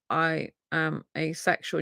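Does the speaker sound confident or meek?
meek. It is said meekly, quietly and without enthusiasm. The speaker is unsure and not standing up for themselves. The speaker calls it wrong. "you're meek and mild about it"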